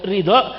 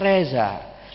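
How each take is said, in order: First: The middle consonant is a D-like sound. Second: The middle consonant is a Z sound. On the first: This is the fluent way the name is said. "Bilang Ridho, Ridho gak bisa" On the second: This is how people from there say the name. "Orang sana bilang Ali Ridho gak bisa. Ali Reza"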